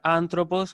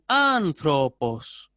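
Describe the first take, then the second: First: No distinct pitch drop on the second syllable. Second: The pitch rises, then drops on the second syllable. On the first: "ustedes lo pueden pronunciar antropos, que va a estar bien" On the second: "En la O es donde ejecuto el descenso tonal y por lo tanto la intensidad"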